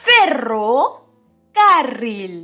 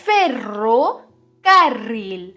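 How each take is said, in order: Both takes have the same delivery.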